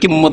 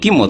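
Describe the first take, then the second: First: The m sound is long and doubled. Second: The m sound is short and single. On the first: This is how Bengali speakers reshape the word. "বাংলায় ওটাকে কিম্মত বানিয়ে দিচ্ছে" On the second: This is the original word meaning price. "কিমত আসলে"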